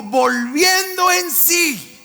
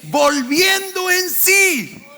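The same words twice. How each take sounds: First: Slow call-and-response. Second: Higher and louder, dragging "Volviendo en sí"; preacher raising the echoed line; louder slow repeat. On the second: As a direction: push it up for the crowd. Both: Shown as a demonstration. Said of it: "Digan conmigo".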